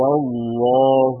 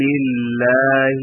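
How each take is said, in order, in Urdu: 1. ل کی آواز موٹی اور بھاری ادا کی جاتی ہے۔ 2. ل کی آواز باریک اور ہلکی ادا کی جاتی ہے۔ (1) "اس لام کو خوب موٹی آواز میں پڑھیں" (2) "لام کو باریک آواز میں پڑھیں"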